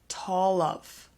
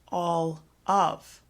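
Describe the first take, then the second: First: The words run together with a carried-over consonant. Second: The words are said separately with a break. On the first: The speaker calls it right. "We have some pushing of the consonant sounds" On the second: The speaker calls it wrong. "we don't say it like that"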